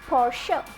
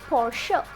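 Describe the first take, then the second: The two takes are said the same way.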